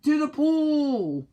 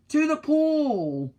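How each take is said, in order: First: High, loud, slow yell. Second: High, loud, slow yell; boy yelling the way to the pool. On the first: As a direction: shout it out to the crowd. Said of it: "yelled the firemen". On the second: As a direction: shout it out with the firemen. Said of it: "I yelled". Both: Acted.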